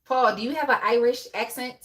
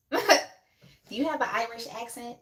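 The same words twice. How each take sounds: First: Said in the usual way. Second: Hammed-up Irish accent, slowed, through a laugh; mock Irish accent. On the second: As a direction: tease him with a playful, slow Irish accent.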